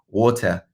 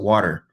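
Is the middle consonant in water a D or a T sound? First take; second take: T sound; D sound. First: The middle consonant is a clear T sound. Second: The middle consonant is a soft D sound. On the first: "They pronounce the T" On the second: "We pronounce it with a D"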